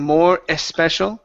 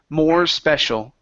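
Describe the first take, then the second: First: An extra vowel sound comes before 'special'. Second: The R links straight into the S sound. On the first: The speaker calls it wrong. "instead of saying more especial" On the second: The speaker calls it right. "Connect the R vowel to the S"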